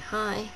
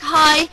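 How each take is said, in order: First: Soft greeting. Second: Higher, louder cheery hi; "Hi" said high and loud like a friendly wave; bright greeting. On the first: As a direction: say "Hi" almost under your breath. Same greeting retold again. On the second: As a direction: call out a happy "Hi" across the room. Singer greeting from the stage. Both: Retold or imitated.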